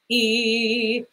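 The vowel starts tense with a glottal catch.

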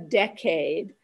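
It is said with an American pronunciation. "in the US, I should say, we pronounce the 10-year piece of time a decade"

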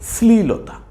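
The word is said smoothly as one unit. The speaker calls it right. "উচ্চারণটা একসাথে করব, সঠিকভাবে করব"

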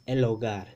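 The l links smoothly into the o. "it's in standard Spanish, it's el hogar"

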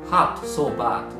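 The vowels sound like a Japanese 'a'. The speaker calls it wrong. "日本語のA で言ってみたいと思います"

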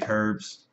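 The word herbs is said the British way. "But they say herbs"

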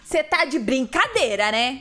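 It is said in an explosive, outraged way. "no refrão é onde ela já explode de vez"

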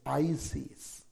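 It uses the American pronunciation. "In America, it's Isis"

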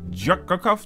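The name is run together as one word. The speaker calls it wrong. "maar dan moet je niet allemaal achter elkaar willen spreken. Van Jakakaf, dat kan niet"

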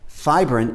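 The word is said the American way. "the American way to pronounce it"

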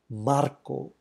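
The name is said with a Spanish accent. The name keeps its ethnic heritage.

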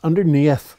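It is said in an Irish accent.

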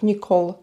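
The name is said with an American pronunciation. "вони кажуть Нікол"

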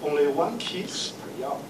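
It is said in a put-on male clerk voice.

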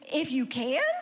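It is said as a doubtful question.

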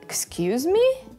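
It sounds indignant and offended.

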